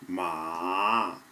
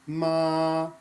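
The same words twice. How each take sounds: First: The pitch dips down and then rises again. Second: The pitch stays flat and level throughout. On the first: It means horse. "start high, go low, and go back up again" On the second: It means mother. "The first tone is a flat tone. Just hold the tone out"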